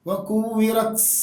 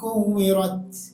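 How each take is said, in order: First: The final t ends with a strong hissing s-like sound. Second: The final t ends with a light puff of breath. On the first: The speaker calls it wrong. "അത് ഓവറായി കഴിഞ്ഞാൽ സീനായി മാറും" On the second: The speaker calls it right. "നിസാരമായ ശ്വാസം"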